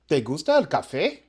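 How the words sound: It is said with a question tune. Do you like coffee? "escucha la pregunta"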